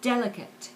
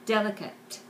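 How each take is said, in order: Both takes have the same delivery.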